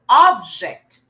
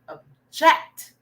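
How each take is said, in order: First: The stress is on the first syllable. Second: The stress is on the second syllable.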